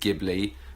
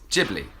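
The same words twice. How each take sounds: First: It is said with the Arabic and Italian pronunciation. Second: It is said with the Japanese pronunciation. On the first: "The word comes from Arabic and Italian, which is Ghibli" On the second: "very much the Japanese pronunciation is Ghibli"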